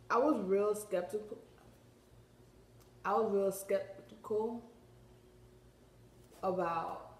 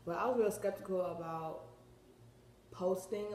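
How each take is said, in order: First: Talking around a retainer; words shaped around a mouth retainer. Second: Said in the usual way. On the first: Real, not acted. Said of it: "I got a retainer in my mouth". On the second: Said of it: "my bad, y'all".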